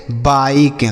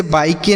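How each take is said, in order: First: बाइक said as "baik", stopping on the k; silent final E. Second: बाइक के said as "bai-ke", last E voiced; final E sounded. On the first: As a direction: end बाइक on k with no "e" after it. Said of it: "उसका उच्चारण हम नहीं करते हैं". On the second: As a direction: add an audible "ke" ending to बाइक के. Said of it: "इसे बाइक के नहीं पढ़ेंगे". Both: Shown as a demonstration.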